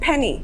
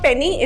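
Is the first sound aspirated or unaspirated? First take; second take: aspirated; unaspirated. First: The p has a strong puff of air. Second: The p has no puff of air. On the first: The speaker calls it right. "it is" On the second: The speaker calls it wrong. "it's not"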